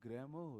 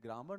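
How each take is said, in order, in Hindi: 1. स्वर के बाद का r मौन रहता है। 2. स्वर के बाद का r उच्चारित होता है। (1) "ग्रामर होता है। ... आर साइलेंट ही रहता है" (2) "इसका करेक्ट प्रोनाउंसिएशन ग्रामर नहीं होता है"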